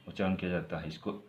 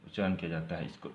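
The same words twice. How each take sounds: The two takes are said the same way.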